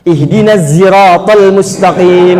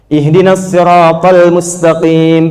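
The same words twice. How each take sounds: First: The word begins with a z sound. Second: The word begins with an emphatic s sound. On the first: "pakai zai" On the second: "pakai shot"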